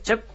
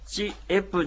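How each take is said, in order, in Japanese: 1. 一息で素早く言います。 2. 母音ごとに区切って言います。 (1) "チェプとこう一息に発音します" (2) "チエプじゃなくて"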